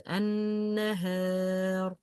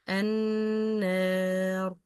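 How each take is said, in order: First: النهار drawn out slowly with a light alif; correct light alif. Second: النار stretched slowly with a heavy, full alif; wrong heavy alif. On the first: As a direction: stretch النهار slowly, keep the alif thin. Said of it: "It's النهار". (النهار ببطء مع ألف مرققة) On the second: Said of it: "It's not النار". (النار ببطء مع ألف مفخمة خاطئة) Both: Shown as a demonstration.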